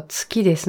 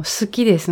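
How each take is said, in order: First: 好きです said as "tsuki desu". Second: 好きです begins "suki", with s alone; su sound. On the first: Speaker contrasting confusable phrases for listeners, tsu for su. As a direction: put a t before the s in 好きです. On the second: Speaker contrasting confusable phrases for listeners, su sound. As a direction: open 好きです on a plain "su". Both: Shown as a demonstration. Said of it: "両方同じ音に聞こえる".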